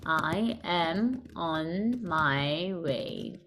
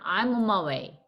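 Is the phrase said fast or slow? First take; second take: slow; fast. First: It is said slowly, each word separate. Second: It is said quickly, with the start contracted. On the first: "천천히" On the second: "앞에를 빨리 줄이면"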